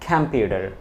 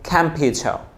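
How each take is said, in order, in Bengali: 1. এটি আমেরিকান উচ্চারণে বলা হয়েছে। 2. এটি ব্রিটিশ উচ্চারণে বলা হয়েছে। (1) "আর আমেরিকান কি বলবে?" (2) "এটা ব্রিটিশ হিসেবে বলে"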